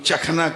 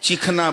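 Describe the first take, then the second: First: The first vowel is a short 'a'. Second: The first vowel is a long 'ee'. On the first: This is how the speaker's region says it. "हम लोग चखना कहते हैं" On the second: This is how the listeners' region says it. "चीखना आप लोग कहते हैं"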